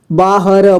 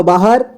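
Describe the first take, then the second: First: "बाहर" split as baa-ha-ra; beginner's reading of "बाहर" as baa-ha-ra; sounded out letter by letter. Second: Said in the usual way. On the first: Shown as a demonstration. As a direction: voice each letter of "बाहर", final ra included. Teacher sounds out, then reads whole.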